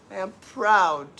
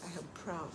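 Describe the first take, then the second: First: Proud said louder and slower with a falling close; firm pride. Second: Proud said far softer, almost to herself; quiet pride. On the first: Telling the pot-seller critics she is proud, said firmly and slowly. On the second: Telling viewers she is proud, first said soft. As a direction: murmur it under the breath. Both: Shown as a demonstration.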